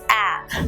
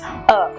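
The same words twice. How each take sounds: First: The vowel is open and wide. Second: The vowel is short and relaxed. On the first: The speaker calls it wrong. "your mouth opens wide, the lips go, they stretch, so it goes a" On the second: The speaker calls it right. "it remains in, I would say, a rest position. It's just a"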